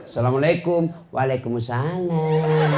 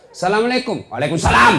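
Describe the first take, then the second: First: Sahdu voice. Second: Firm, higher and louder greeting. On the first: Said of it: "jangan kau kasih sahdu suaramu". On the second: Girl answering her boyfriend's call firmly, loud and brisk. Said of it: "Coba kau tegas". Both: Shown as a demonstration.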